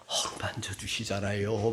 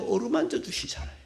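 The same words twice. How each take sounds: First: Soft, low, hushed and gentle; whispered tender reminder. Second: Said in the usual way. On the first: Real, not acted. Pastor reminding the congregation God comforts Elijah, tender whisper. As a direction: breathe it like a secret comfort.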